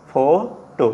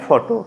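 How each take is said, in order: First: "ফোটো" in two beats, ফো, pause, টো; split into syllables. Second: Said in the usual way. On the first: Shown as a demonstration. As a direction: separate ফো from টো with a clear gap. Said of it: "দুটো ভাগে ভাগ হয়ে গেল". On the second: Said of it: "মানে ফটো".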